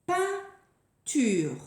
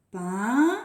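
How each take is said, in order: First: "Peinture" higher, in two clear beats; word announcement. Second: "Peinture" with pein long and rising, long pause, ture; syllable counting. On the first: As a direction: present "Peinture" with a short gap before ture. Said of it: "Nouvelle image". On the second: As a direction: count out "Peinture" for children to follow. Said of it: "Vous faites avec moi". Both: Shown as a demonstration.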